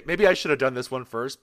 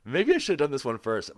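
First: Said in the usual way. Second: Voice cracking. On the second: Real, not acted. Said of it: "My voice just cracked".

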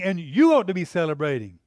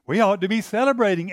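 First: You stressed, then falling to celebrating. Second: Celebrating stressed with a falling tune. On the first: Father turning it on his son, stress on you. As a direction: point it at you, loud. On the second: Father telling his son, stress on celebrating. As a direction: lean on celebrating, loud. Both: Acted.

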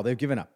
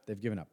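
First: Said in the usual way. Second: Much softer repeat. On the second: Real, not acted. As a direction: drop the voice on They've given up, resigned. Rant, repeated for effect.

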